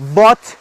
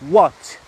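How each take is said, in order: First: The word begins with a v-like sound. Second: The word begins with a rounded w sound. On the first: The speaker calls it wrong. "وات نگو" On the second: The speaker calls it right. "دبلیو رو او تلفظ کن"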